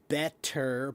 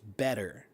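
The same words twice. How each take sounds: First: The middle consonant is a hard T. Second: The middle consonant is a soft D. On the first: "the hard T" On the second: "becomes a soft D"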